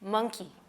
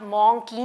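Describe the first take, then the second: First: The first vowel sounds like a short 'uh'. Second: The first vowel sounds like a rounded 'o'. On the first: The speaker calls it right. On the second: The speaker calls it wrong. "आप मॉन्की नहीं सुनते"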